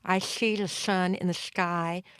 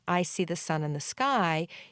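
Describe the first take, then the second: First: The s sounds are slushy, air escaping sideways. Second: The s sounds are crisp and clear. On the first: The speaker calls it wrong. "a slurpy, slushy type of sound" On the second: The speaker calls it right. "instead of hearing"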